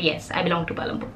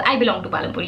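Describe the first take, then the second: First: Softer and faster, tossed off to herself; soft quick repeat. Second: Said in the usual way. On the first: Shown as a demonstration. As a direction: murmur the repeat quickly, almost under her breath. Repeats her hometown claim softly.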